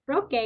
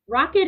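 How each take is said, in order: First: The word is said with Spanish pronunciation. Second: The word is said with English pronunciation. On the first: "rocket en español" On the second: "Rocket is in English"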